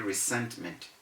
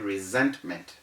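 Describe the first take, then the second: First: The s is said as a hissing s. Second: The s is said as a buzzing z. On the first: The speaker calls it wrong. "We do not say resentment" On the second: The speaker calls it right. "You have to say resentment"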